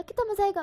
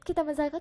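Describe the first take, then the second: First: Much higher, squealing with delight; मज़ा stretched high and gleeful; giddy glee. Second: Lightly excited, near usual pitch; a first, calmer kit962 of the fun; mild glee. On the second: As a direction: kitna maza aayega said with a small smile. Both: A narrator's reading. Repeated gleeful thought.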